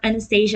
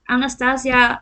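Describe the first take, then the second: First: The name is pronounced the English way. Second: The name is pronounced the Dutch way.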